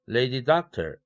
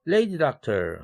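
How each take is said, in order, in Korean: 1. 강세는 두 번째 단어에 옵니다. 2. 강세는 첫 번째 단어에 옵니다.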